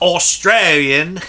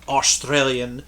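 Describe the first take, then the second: First: It is said in a put-on Australian accent. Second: It is said in the speaker's ordinary accent. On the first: The speaker calls it right. "I should have said it like this" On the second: The speaker calls it wrong. "I don't know why I said it like I should have"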